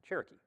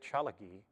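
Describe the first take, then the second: First: It has an 'r' and a 'k' sound. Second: It has an 'l' and a 'g' sound.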